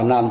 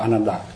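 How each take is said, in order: First: The name ends on a consonant sound. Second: The name ends with a final vowel sound. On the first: "Anan thì người ta đọc là Anan thôi" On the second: "còn nếu mà ví dụ mình đọc là Ananda"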